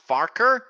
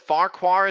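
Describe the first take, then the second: First: The second syllable is said as 'ker'. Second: The second syllable is said as 'kwar'. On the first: This is how the name was said in the original books. "is actually pronounced Farker" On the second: This is how the name is said in the show. "As it looks like it's spelled"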